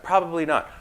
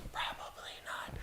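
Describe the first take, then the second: First: Said in the usual way. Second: A sly whispered aside, with no voice at all. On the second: Shown as a demonstration. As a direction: drop to a whisper as if telling a secret.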